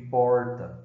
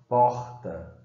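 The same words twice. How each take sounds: First: The R is retroflex, like interior speech. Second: The R sounds like Rio de Janeiro speech. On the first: "no interior de São Paulo ou no sul do país" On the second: "no Rio de Janeiro"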